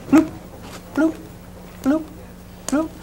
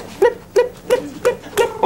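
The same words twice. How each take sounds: First: Spaced-out bloop sounds; one short bloop at a time, evenly spaced; low-frequency bloops. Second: Quick, high-pitched blip sounds; high little blips in quick succession; high-frequency blips. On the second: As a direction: imitate rapid waves with tiny high blips. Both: Shown as a demonstration. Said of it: "higher frequency or lower".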